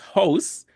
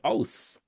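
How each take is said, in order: First: The word starts with an H sound. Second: The word starts without an H sound. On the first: "if it's house" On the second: "they drop off the H"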